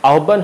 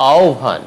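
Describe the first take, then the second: First: আহ্বান said "ahobban"; hard doubled b in আহ্বান; wrong pronunciation. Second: আহ্বান said "aobhan"; aspirated bh after "ao" in আহ্বান; correct pronunciation. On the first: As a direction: keep the "hobb" in আহ্বান. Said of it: "আহ্বান হবে না". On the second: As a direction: glide আহ্বান into "ao-bhan". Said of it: "হবে". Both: Shown as a demonstration.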